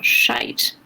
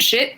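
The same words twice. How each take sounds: First: "shite" with a long drawn-out British vowel; British pronunciation. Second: Said in the usual way. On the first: Shown as a demonstration. Correcting a swear word to fit the accent, British "shite". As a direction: stretch "shite" slowly to rhyme with "kite". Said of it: "give us your English accent".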